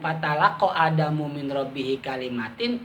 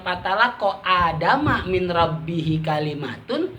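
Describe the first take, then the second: First: Adam ends in u, and kalimat ends in in. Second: Adam ends in a, and kalimat ends in un. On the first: Adam actively sought out what to do. "kalau dibaca secara umum" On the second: Adam did not seek, and the words were given to him. "Tapi kalau dibacanya"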